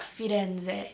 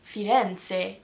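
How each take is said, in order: First: The wrong Firenze, z buzzed as in zoo; American Z. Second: Firenze with a crisp ts, "firen-tseh"; TS sound. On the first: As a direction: say Firenze slowly with an English z. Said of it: "It's not Firenze". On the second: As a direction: say Firenze slowly, z as t-s. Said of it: "Z sound is actually a T S". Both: Shown as a demonstration.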